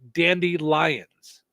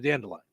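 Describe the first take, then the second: First: It is split into two words, like dandy lions. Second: It is said as one ordinary word. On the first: "I say dandelions ... two words" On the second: "instead of dandelions"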